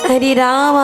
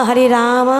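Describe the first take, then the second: No difference in how they are said.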